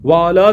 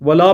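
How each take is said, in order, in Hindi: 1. पहला स्वर लंबा है, waala। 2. पहला स्वर छोटा है, wala। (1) "वाला ऊपर सलामती हो" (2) "वला पढ़ते हैं, वला का ना हो"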